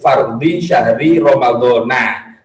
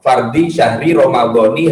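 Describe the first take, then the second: First: The last word ends with an 'a' vowel. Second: The last word ends with an 'i' vowel. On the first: The phrase ends here with nothing following. "Kalau misalnya tidak ada terusannya, ya memang bacanya Romadhona" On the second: The phrase continues into the following words. "kalau diidofahkan dia menjadi munsharif, akhirnya dia dialamati kasroh"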